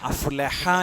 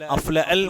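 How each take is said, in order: First: A clear h sound follows afla. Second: The h sound after afla is dropped. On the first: The speaker calls it right. "എന്നത് ഹ വരണം" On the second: The speaker calls it wrong. "ചില ആളുകളുടെ ശബ്ദം"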